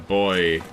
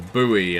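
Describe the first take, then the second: First: It is said in a non-American, British-style way. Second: It is said the way Americans say it.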